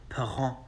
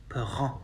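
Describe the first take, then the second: Both takes have the same delivery.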